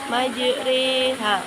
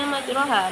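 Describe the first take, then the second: First: The middle vowel is tilted toward an 'e' sound. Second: The middle vowel is a plain open 'a' sound. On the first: The speaker calls it right. "harus dibaca majriha" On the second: The speaker calls it wrong. "tulisannya majroha"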